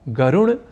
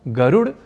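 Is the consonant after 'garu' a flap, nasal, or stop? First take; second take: nasal; flap. First: The consonant after 'garu' is a retroflex nasal. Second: The consonant after 'garu' is a retroflex flap. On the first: "ड को ड़ या ण इस रूप में बोलना ... अशुद्ध" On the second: "ड को ड़ या ण इस रूप में बोलना ... अशुद्ध"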